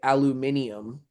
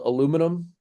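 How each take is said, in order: First: The word is said the British way. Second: The word is said the American way. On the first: "over there they will say" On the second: "In America, we call it"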